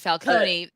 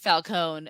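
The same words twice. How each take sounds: First: The name is said with an Italian pronunciation. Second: The name is said with an American pronunciation. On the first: "Italians say" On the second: "us Americans pronounce it Falcone"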